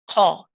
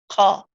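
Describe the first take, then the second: No difference in how they are said.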